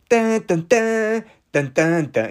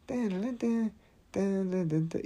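First: Dun dun sung out higher, full voice; sung, belt the A-Team theme with gusto; humming A-Team theme. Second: Dun dun sung higher and much softer; quiet A-Team hum. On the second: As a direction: hum the theme under your breath. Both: Shown as a demonstration. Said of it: "Is that A-Team?".

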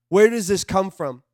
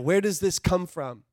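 First: Louder, pressing where; louder urgent second ask; emphatic repeat. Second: Said in the usual way. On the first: Real, not acted. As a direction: push the question harder.

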